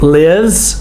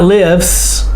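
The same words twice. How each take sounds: First: The word ends with a buzzing Z sound. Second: The word ends with a hissing S sound. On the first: The speaker calls it right. "You hear the Z sound?" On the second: The speaker calls it wrong. "it's not lives"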